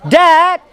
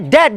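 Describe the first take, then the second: First: The vowel is said long. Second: The vowel is said short. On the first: It means father. The speaker calls it right. "it has to be long" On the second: It sounds like the word for dead. The speaker calls it wrong. "they don't say Dad"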